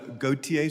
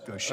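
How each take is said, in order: First: The name is pronounced the general way. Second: The name is pronounced the Mississippi way. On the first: This is the usual pronunciation of the name. "It's uh, Gautier, sir" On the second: This is how the name is said in Mississippi. "unless you're in Mississippi, and that's Gaucher"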